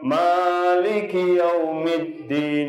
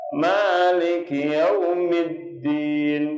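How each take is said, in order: First: The first vowel is drawn out too long. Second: The first vowel is held briefly with a swing. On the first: The speaker calls it wrong. "bukan maliki yaumiddin itu ma gitu" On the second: The speaker calls it right. "Jadi ngayun"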